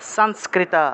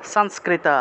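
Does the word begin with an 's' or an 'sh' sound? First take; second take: s; s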